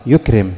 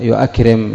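First: يكرم as "yukrim", two syllables; hamza dropped in يكرم. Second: يؤكرم as "yu-akrim", the unused full form; hamza kept in يؤكرم. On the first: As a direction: run "yu" straight into k in يكرم. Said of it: "إنما قالت". (يكرم بحذف الهمزة وسكون الكاف) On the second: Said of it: "لم تقل". (يؤكرم بالهمزة المفتوحة بعد الياء) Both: Shown as a demonstration.

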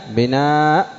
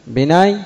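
First: بناء with long aa cut by glottal stop; final hamza. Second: بناي higher, ending in y; original ya form. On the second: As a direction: end بناي on a ya glide. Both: Shown as a demonstration. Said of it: "الهمزة بدل الياء".

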